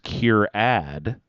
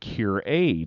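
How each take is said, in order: First: The second syllable rhymes with 'add'. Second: The second syllable rhymes with 'aid'. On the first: The speaker calls it right. "This is Cure-Add" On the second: The speaker calls it wrong. "I always thought my brain said Cure-Aid"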